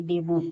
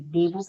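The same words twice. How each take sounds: First: "डेबूट" with a final t; T sounded. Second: "डेबू" ending on oo, no t; silent-t reading of "डेबू". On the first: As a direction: say "डेबूट" closing on t. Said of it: "नहीं कि डेबूट". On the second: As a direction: say "डेबू" with an open final vowel. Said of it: "डेबू पढ़ेंगे". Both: Shown as a demonstration.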